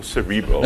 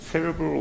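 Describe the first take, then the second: First: "cerebral" stressed on the middle syllable, suh-REE-brul; stress on second syllable. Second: "cerebral" stressed on the first syllable, SERR-uh-brul. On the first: Speaker offering the other pronunciation, "cerebral" stressed on REE. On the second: Speaker asking the audience which is correct, "cerebral" stressed on SER. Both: Shown as a demonstration. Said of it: "But is it cerebral or cerebral?".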